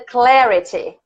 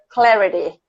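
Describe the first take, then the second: First: It is said with a British accent. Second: It is said with an American accent.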